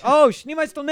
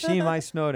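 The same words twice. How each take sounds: First: High, loud mock exclamation; mock sudden recognition. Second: "Shnimai stone" in halting amateur Russian, raised; badly pronounced Russian. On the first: Russian speaker finally understands the phrase, loud mock recognition. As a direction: burst out as if it finally makes sense. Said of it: "and they're like". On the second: Retrying a phrase on a puzzled Russian speaker, badly pronounced Russian. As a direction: try "Shnimai stone" once more with a clumsy accent. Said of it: "I don't say it good".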